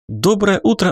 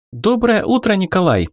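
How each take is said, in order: First: Доброе утро sung out high and bright, like a morning TV host; upbeat, high greeting of a TV presenter; cheerful news anchor. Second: Доброе утро pitched very high and eager; young reporter greeting live on air, ringing high; ringing, excited reporter. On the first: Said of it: "бодрым голосом сделали объявление". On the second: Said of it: "Звонким, взволнованным голосом поздоровалась корреспондент". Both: Acted.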